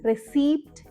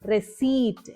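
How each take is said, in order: First: A p sound is pronounced before the final t. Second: No p sound is pronounced before the final t. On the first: The speaker calls it wrong. "ആ പി ശബ്ദം കൂടെ ചേർത്തിട്ടാണ് നമ്മൾ pronounce ചെയ്യാറ്" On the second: The speaker calls it right. "പി അവിടെ silent ആണ്"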